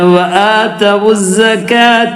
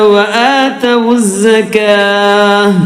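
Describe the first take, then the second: First: The final sound is a clear t. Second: The final sound is a soft h. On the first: The recitation continues without stopping. "ത ത ആയിട്ട് തന്നെ ഉച്ചരിക്കും" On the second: The recitation stops at this word. "ത ഹ ആയിട്ട് മാറി, സുക്കൂണിലെ ഹ"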